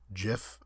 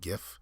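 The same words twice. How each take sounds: First: The word starts with a J sound. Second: The word starts with a hard G sound. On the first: "GIF is is if it were with a J" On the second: "it's a little bit more intuitive to say GIF"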